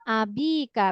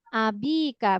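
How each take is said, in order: First: The vowel after the b is long. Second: The same.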